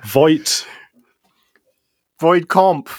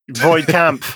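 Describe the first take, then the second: First: The second word has the vowel of 'comp'. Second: The second word has the vowel of 'camp'. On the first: The speaker calls it right. "That A should definitely be an O" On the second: The speaker calls it wrong. "Ben mispronounced the test"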